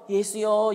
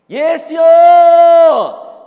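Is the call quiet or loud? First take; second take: quiet; loud. First: The name is called in a quiet voice. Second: The name is shouted in a loud voice.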